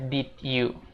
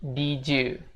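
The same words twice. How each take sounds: First: The two words are said separately. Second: The two words are run together. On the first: The speaker calls it wrong. "bukan dibaca did you" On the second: The speaker calls it right. "tapi did you"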